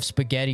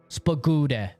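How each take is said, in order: First: The word is said with its usual sounds. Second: The word is said with altered, garbled sounds. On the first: The speaker calls it right. "instead of spaghetti" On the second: The speaker calls it wrong. "you purposely mispronounce some of the words"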